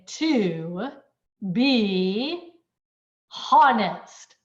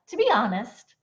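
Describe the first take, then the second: First: Each word is said separately, with breaks. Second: The words blend together in one breath. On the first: The speaker calls it wrong. "I'm not separately saying" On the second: The speaker calls it right. "blend and say this in one continuous breath"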